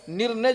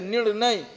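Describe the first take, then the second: First: निर्णय said with a plain r and n, ending in "ne"; निर्णय as miswritten. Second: निर्णय with a retroflex N, ending in a clear "nai"; corrected निर्णय. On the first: Teacher reading out a wrongly written word, निर्णय as "nir-ne". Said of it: "ये लिखा गलत गया है". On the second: Teacher correcting a misspelt word for students, निर्णय as "nir-Nai". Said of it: "निर्णय जिसे कहते हैं". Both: Shown as a demonstration.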